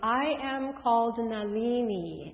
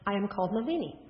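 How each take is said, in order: First: It is said slowly. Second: It is said at a normal speed.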